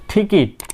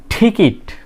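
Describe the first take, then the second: The two takes are said the same way.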